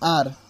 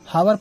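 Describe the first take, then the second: First: The word begins with a vowel sound. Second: The word begins with an h sound. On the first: The speaker calls it right. "इसे हम लोग actual में पढ़ते हैं आर" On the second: The speaker calls it wrong. "कुछ लोग इसे हावर पढ़ते हैं"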